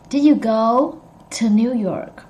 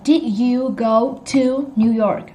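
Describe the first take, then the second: First: "to" shortened to a weak tuh; reduced "to". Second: Slow, every word separate, "to" as a full TOO; full clear "to". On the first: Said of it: "you say it like this". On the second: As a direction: say "to" in full, as it is spelt. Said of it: "How we spell it. You write down". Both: Shown as a demonstration.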